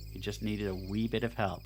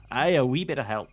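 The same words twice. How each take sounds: First: Said in the usual way. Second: "Aye, a wee bit of help" in a louder mock Scottish accent; hammed-up Scottish accent, much louder. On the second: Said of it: "My granddad had a thick Scottish accent".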